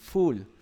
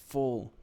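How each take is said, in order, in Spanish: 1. La vocal es larga, como en 'fool'. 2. La vocal es corta, como en 'full'. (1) "muchos lo pronuncian full" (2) "resulta que se pronuncia full"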